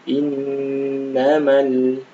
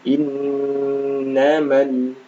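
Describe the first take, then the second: Both takes have the same delivery.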